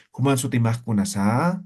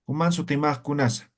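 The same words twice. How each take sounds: First: "kunasa" stretched upward at the end; wrongly intoned question, rising on "kunasa"; questioning intonation. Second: "kunasa" falls, with no question lift; unintoned question. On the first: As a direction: make "kunasa" climb like a Spanish question. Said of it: "No decimos". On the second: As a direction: ask it dryly, letting "kunasa" drop. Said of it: "No entonamos en aymara". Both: Shown as a demonstration.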